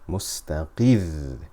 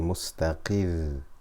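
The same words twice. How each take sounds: First: The voice rises slightly on the final syllable. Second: The final syllable has no extra emphasis. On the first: The final letter is doubled. "You can hear the emphasis" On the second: The final letter is single, not doubled. "If there is no shadda, it would be mustaqir"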